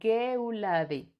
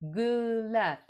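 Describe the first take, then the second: First: The word is pronounced with Spanish sounds. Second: The word is pronounced with French sounds. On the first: "La voy a pronunciar como en español" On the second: "No sé si la pronuncié bien"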